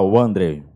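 The name is said in a big, deep voice. The speaker is not attracted to men. "Meio aquele vozeirão"

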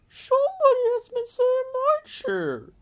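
It is said in a middle-sized bear voice.

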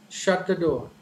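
The voice falls at the end. It is a command. "initially high and finally the tone falls down"

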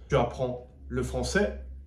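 The voice rises at the end. It is a question.

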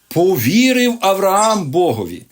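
The stress falls on the word about believing. The focus is on Abraham's own faith. The speaker calls it wrong. "ставлять акцент на віру Авраама"

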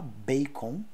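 It is said with Portuguese vowels. "Em português a gente vai falar bacon"

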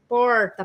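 An inland São Paulo R, tongue curled back.

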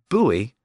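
It is said as two syllables, like 'boo-ee'. "the American buoy"

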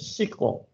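It is pronounced with an English reading. "dalam bahasa Inggris sering disebut SQL"

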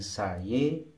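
The final vowel is an e sound.

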